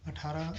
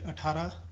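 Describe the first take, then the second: No difference in how they are said.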